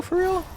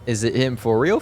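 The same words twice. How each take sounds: First: High-pitched incredulous squeak; squeaky disbelief. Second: Said in the usual way. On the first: Real, not acted. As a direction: shoot way up in pitch.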